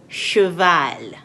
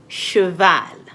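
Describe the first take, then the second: Both takes have the same delivery.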